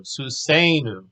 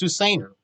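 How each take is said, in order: First: Susenu slowly, with a long, stressed "say" in the middle; exaggerated stress on SE. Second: Said in the usual way. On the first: Shown as a demonstration. Teacher exaggerating the accented syllable, susenu stressed on SE. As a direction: stretch and punch the SE of susenu. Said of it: "accent is on the, the A sounding syllable". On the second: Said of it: "if you say it normal".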